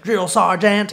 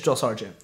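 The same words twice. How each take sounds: First: It is said in Forrest Gump's Southern accent. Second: It is said in Tom Hanks' neutral accent.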